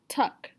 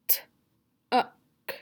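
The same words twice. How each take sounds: First: Said in the usual way. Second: TUCK broken into t, u, k; segmented sounds. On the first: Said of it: "I'm gonna tell you a word". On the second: Shown as a demonstration. Teacher showing the sounds in tuck, segmented. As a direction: say "T-uck" sound by sound with gaps. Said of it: "you're gonna tell me the sounds".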